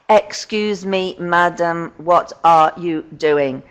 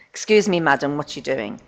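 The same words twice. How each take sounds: First: It is said choppily, with breaks between parts. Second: It is said smoothly, as one fluent chunk.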